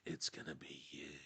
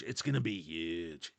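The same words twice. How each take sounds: First: Much softer, hushed repeat; whispering. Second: Said in the usual way. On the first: Pretend. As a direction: drop to a secret hush. Repeated phrase, hushed take.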